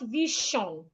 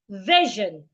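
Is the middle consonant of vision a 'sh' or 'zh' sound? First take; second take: sh; zh. First: The middle consonant is a voiceless 'sh' sound. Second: The middle consonant is a voiced 'zh' sound. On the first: The speaker calls it wrong. "not vision" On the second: The speaker calls it right. "I also have it in the word vision"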